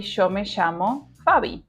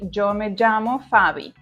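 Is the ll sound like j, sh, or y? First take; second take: sh; j. First: The ll sounds like an English sh. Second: The ll sounds like an English j. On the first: This is how it is said in Rioplatense Spanish. "we produce this S H sound like in show" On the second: This is how it is said in Colombia. "In Colombia, they pronounce it in a stronger way, producing the sound J"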